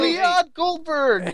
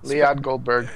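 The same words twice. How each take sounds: First: It is said with lively excitement. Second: It is said flatly, without excitement.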